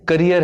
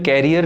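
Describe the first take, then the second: First: The first syllable sounds like short 'ka'. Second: The first syllable sounds like 'care'. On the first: The speaker calls it right. "इसकी सही pronunciation" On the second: The speaker calls it wrong. "वो गलत है"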